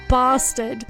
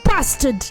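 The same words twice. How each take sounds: First: It is said in a Southern English accent. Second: It is said in a Northern English accent.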